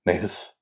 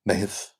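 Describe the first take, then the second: The two takes are said the same way.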